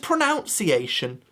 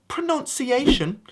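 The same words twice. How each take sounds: First: The second syllable sounds like 'nounce'. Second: The second syllable sounds like 'nun'. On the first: The speaker calls it right. "It comes from the word pronounce" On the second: The speaker calls it wrong. "that's just me bringing back my Americanisms again"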